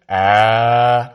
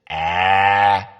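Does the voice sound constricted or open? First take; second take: open; constricted. First: The throat is open and relaxed. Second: The throat is squeezed and tight.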